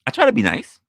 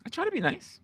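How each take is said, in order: First: Said in the usual way. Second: Sweet high take. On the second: Shown as a demonstration. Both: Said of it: "Just saying".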